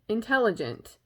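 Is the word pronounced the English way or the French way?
English. The word has an English pronunciation.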